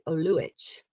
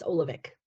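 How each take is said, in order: First: The surname has its European, Croatian pronunciation. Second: The surname has its American, anglicized pronunciation. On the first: This is how it is said in Europe. "when you're in Europe, you would pronounce it Oluich" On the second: This is how it is said in America. "here in America, it's Olivec"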